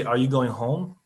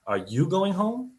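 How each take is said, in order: First: Going lifted, rising question; "Are you going home?" with a rise on going; stress on going. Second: "home" pushed up high and slow, rising; a slow, high, surprised rising "home?"; stress on home, high. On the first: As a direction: lean on "going" as a plain question. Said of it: "you can say". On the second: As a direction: stretch "Are you going home?" up high on home. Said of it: "those have two totally different meanings". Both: Shown as a demonstration.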